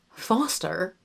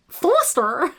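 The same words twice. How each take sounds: First: Quiet try at Foster in RP; attempted RP accent. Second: Foster said high and louder, overdone; retry Foster as a high, struggling question; botched Foster. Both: Shown as a demonstration. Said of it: "I can't say his name".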